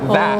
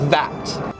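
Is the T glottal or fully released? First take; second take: glottal; released. First: The final T is a glottal stop. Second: The final T is fully released. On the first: It sounds natural and standard. "I make it a glottal T" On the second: It sounds posh. "they would pronounce the T properly"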